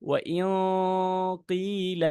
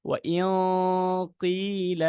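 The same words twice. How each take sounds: Both takes have the same delivery.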